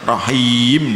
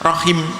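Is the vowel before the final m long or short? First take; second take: long; short. First: The vowel before the final m is long. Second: The vowel before the final m is short. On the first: The speaker calls it wrong. "tidak boleh rohim, tidak boleh" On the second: The speaker calls it right. "kalau rohima pendek, wakafnya harus rohim"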